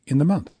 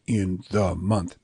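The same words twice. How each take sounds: First: "in the" quick, punch on "month"; "in the month" as short, short, stressed long; natural two shorts. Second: "in the month" low and slow, every word stretched; "in the month" as three stiff long beats; overlong syllables. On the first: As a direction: run lightly through in the onto month. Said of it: "You're gonna say". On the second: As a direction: drag out in and the equally. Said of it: "who's gonna say". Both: Shown as a demonstration.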